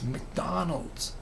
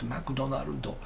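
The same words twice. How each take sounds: First: It is said with a plain American English pronunciation. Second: It is said with Japanese katakana-style syllables. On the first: The word keeps its original English form. The speaker calls it right. "Say it correctly" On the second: The word is adapted into Japanese. The speaker calls it wrong. "katakana pronunciation"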